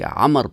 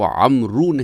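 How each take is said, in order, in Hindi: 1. नाम के अंत में कोई अतिरिक्त स्वर नहीं जुड़ता। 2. नाम के अंत में एक अतिरिक्त 'oo' स्वर जुड़ता है। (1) "बल्कि अमर पढ़ते हैं" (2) "इसको अमरू नहीं पढ़ते"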